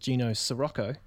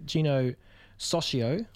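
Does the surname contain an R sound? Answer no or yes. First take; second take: yes; no. First: The surname sounds like Sirocco, with an R. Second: The surname sounds like Socio, without an R. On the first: The speaker calls it wrong. "I thought it was Gino Sirocco, like the Volkswagen, but it's not" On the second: The speaker calls it right.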